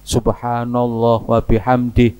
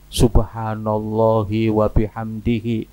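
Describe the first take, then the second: First: The final vowels of the words are dropped. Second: The final vowels of the words are pronounced.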